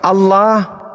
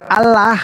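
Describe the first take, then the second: First: It is said with Arabic articulation of the sounds. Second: It is said with plain Indonesian-style sounds. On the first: "ejaan makhraj huruf, pakai tajwid" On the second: "ejaan Latin"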